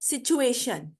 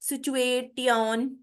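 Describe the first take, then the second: First: The ending is said with an 'sh' sound. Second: The ending is said with a 't' sound. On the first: The speaker calls it right. "तो ये शन की आवाज देगा" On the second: The speaker calls it wrong. "कई लोग इसको पढ़ते होंगे"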